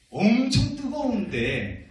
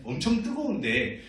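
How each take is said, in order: First: 엄청 held long, high and loud; stretched emphasis on 엄청. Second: Said in the usual way. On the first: Shown as a demonstration. Pastor telling children of hot brick kilns, 엄청 dramatically stretched. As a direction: lean hard and slowly on 엄청.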